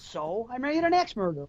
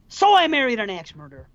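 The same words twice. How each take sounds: First: It is said defensively. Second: It is said angrily.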